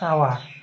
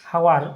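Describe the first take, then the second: First: The word starts with a vowel sound. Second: The word starts with an h sound. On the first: The speaker calls it right. "এইচ এর উচ্চারণটা খুব কম হবে" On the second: The speaker calls it wrong. "হাওয়ার নয় কিন্তু"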